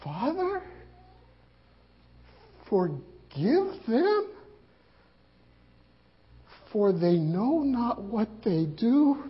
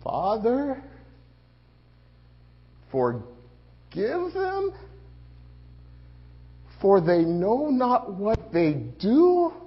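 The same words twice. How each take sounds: First: Slow, faint repeat of the words; dying Jesus again. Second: Slow, strained words from the cross; dying Jesus. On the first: Disciple repeating the dying words, slow and faint. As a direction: echo them softly, barely holding on. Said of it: "Oh, my God". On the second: Jesus forgiving from the cross, slow and strained. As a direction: drag out each word like a dying man. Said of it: "what is it you're trying to say". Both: Acted.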